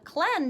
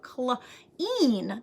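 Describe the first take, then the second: First: The vowel is short, like in 'bed'. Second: The vowel is long, like in 'see'. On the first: The speaker calls it wrong. "clen doesn't sound like a word that I know" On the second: The speaker calls it right. "that sounds like a word that I know"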